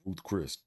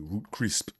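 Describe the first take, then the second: First: The name is said as Ruth Chris. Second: The name is said as Root Crisp. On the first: The speaker calls it right. "My dad could never say Ruth Chris" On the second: The speaker calls it wrong. "he would say Root Crisp"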